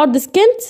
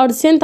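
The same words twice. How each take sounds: First: أرض سكنت with a k after the s, rising at the end; mistaken k pronunciation. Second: أرض سنت with only an s, no k; correct silent c. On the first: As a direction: say سكنت as "skent", questioningly. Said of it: "ليه هنا ما كنتش بتقولها". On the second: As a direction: say سنت as "sent", straight through. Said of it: "ليه كنت بتقولها أرض سنت على طول". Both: Shown as a demonstration.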